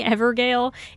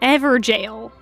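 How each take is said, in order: First: The word ends with a 'gale' sound. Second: The word ends with a 'jail' sound. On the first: "It sounds cooler if it's Evergale" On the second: "I guess they're just put into jail then"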